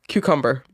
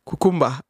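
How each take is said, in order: First: It is said without a Nigerian accent. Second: It is said in a Nigerian accent.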